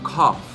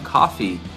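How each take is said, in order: First: The word sounds close to 'cough'. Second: The word sounds clearly like 'coffee'. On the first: The speaker calls it wrong. "você não vai dizer assim" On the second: The speaker calls it right. "Você vai dizer"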